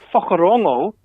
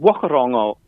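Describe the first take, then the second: First: The name is said in the Māori way. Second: The name is said in an anglicized way. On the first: The speaker calls it right. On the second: The speaker calls it wrong.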